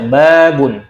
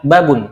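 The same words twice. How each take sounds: First: BABUN with a long drawn-out BA; long first syllable. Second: BABUN with the BA cut short; short first syllable. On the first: Teacher reads the word correctly, BABUN with long BA. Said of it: "maka kita baca babun". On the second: Teacher shows the mistake, BABUN with short BA. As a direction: say BABUN quickly, no long A. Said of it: "Nah, itu yang salah". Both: Shown as a demonstration.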